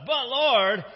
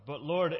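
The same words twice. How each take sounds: First: High, loud protest; much louder, emphatic exclamation; exclaiming. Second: Said in the usual way. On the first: Acted. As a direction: cry out in objection. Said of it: "exclaimed Ananias".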